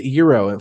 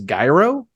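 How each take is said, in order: First: The word begins with a y sound. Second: The word begins with a j sound. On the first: The speaker calls it right. "And that is Euro" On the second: The speaker calls it wrong. "Some of you guys in Indiana probably say that as gyro"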